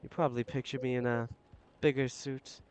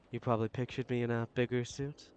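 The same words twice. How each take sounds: First: Said in the usual way. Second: "bigger suit?" rising as a question; echoed back as a rising question; questioning tune. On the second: Acted. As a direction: turn "You probably pictured me in a bigger suit?" into a question, rising on "bigger".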